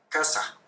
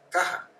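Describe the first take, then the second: First: The middle consonant is a clear s sound. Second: The middle consonant is a breathy h sound. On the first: "en vez de pronunciar S" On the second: "hacen como una J"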